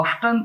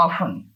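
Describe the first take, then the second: First: "often" said as OFF-ten, t sounded clearly. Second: "often" said as OFF-en, silent t, low and soft; often without t. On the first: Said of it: "આનો ઉચ્ચાર often પણ થાય". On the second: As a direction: say "often" with no t sound: OFF-en. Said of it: "પણ વધારે often વધારે બોલાય છે". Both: Shown as a demonstration.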